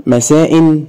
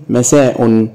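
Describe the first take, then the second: First: مساء as masaa-in; kasra tanween. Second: مساء as masaa-un; damma tanween. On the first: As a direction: end مساء in a glottal stop and "in". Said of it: "وبالكسر مرة". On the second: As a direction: end مساء in a glottal stop and "un". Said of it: "وبالضم". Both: Shown as a demonstration.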